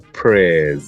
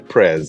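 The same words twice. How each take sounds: First: The word has the local Chaguanas pronunciation. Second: The word has the usual, non-local pronunciation. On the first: "They say prayers" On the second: "they don't say prayers"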